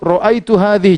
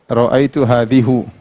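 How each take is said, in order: First: The last word ends with an 'i' vowel. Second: The last word ends with a 'u' vowel. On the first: The speaker calls it right. "mansub, ra'aitu hadhihi" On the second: The speaker calls it wrong. "Jangan kita baca ... salah"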